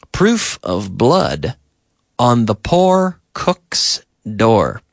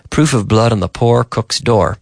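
First: Slow, separated words for learners; slow model sentence. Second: Said in the usual way. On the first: Shown as a demonstration. Teacher models example sentence for learners, slow and measured. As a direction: say it slowly, pausing midway.

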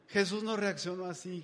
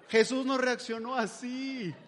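First: Said in the usual way. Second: "no" drawn out, slow and higher; stress on no. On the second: Shown as a demonstration. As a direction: lean hard on "no" in a slow, emphatic line. (enfatiza "no" despacio y con fuerza)

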